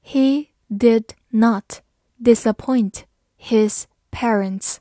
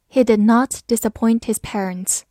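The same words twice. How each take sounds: First: Slow, clear, each word apart; slow reading. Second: Said in the usual way. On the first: Shown as a demonstration. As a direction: read it slowly for students. (慢速朗读) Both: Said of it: "好，慢慢来读".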